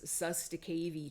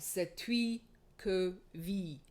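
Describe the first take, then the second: First: It is said with an Americanized pronunciation. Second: It is said with a French-style pronunciation. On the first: The speaker calls it wrong. "a lot of Americans mispronounce as" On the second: The speaker calls it right. "it's Old French"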